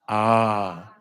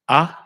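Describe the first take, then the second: First: The vowel is held longer. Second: The vowel starts with a crisp catch.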